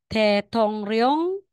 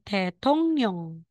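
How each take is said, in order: First: The last syllable starts with an r sound. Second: The last syllable starts with an n sound. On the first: The speaker calls it wrong. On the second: The speaker calls it right.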